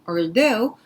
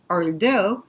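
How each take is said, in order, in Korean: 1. 강세는 두 번째 음절에 있어요. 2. 강세는 두 번째 음절에 있어요.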